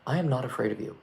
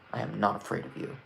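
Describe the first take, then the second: First: It is said with little intensity. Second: It is said with strong intensity.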